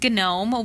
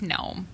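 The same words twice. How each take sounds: First: The initial G is pronounced before the n. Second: The initial G is silent, starting with n. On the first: The speaker calls it wrong. "But he says gnome" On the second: The speaker calls it right. "we're going with a silent G"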